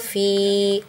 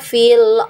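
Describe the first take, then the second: First: The vowel of fi is held long. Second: The vowel of fi is cut short. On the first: The reader stops at this word. "fi-nya kita baca panjang kalau kita berhenti" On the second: The reader joins it to the next word. "kalau kita wasal ya, bacaan kita, maka dipendekkan fi-nya"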